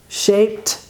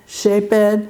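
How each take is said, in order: First: The ending is said as a t sound. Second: The ending is said as an extra syllable. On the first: The speaker calls it right. "la ed se va a pronunciar como T" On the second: The speaker calls it wrong. "es un error"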